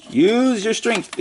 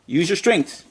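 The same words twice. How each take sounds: First: "Use your strength" higher and slow, stressing "Use"; emphatic repeat. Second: Said in the usual way. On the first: Shown as a demonstration. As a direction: drag out "Use your strength" as a pep talk.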